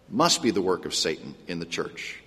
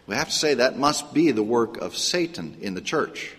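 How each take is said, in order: First: "Must" stressed, the rest dropped lower and softer; quiet emphatic repeat. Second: Said in the usual way. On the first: Shown as a demonstration. Preacher repeating his point to the congregation, hushed and stressed on "Must". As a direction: echo it hushed, leaning on "Must".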